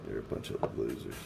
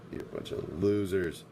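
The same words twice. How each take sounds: First: Much lower, softer put-on voice; mock deep taunt. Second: Said in the usual way. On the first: Streamer taunting his four viewers, much lower mock voice. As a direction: drop way down to sneer it.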